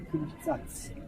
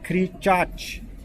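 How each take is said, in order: First: The word ends with a 'ts' sound. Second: The word ends with a 'ch' sound. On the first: The speaker calls it wrong. "it says radio kričac" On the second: The speaker calls it right. "the chach at the end is very prominent"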